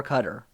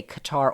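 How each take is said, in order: First: "Qatar" as CUT-er, stress on first syllable, soft t; Qatar pronounced CUT-er. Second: "Qatar" as kuh-TAR, stress on TAR; Qatar pronounced kuh-TAR. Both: Shown as a demonstration. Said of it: "you can say Qatar or Qatar".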